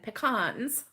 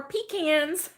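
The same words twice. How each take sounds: First: "pecans" said as puh-KAHNZ; slow "pecans", rhyming its end with "cons"; alternate pronunciation. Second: "pecans" said as PEE-canz; slow "pecans", rhyming its end with "cans"; alternate pronunciation. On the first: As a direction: say "pecans" with stress on the second syllable, an AH vowel. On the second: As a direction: punch the first syllable of "pecans", PEE, higher and louder. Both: Shown as a demonstration. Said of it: "however you wanna say it".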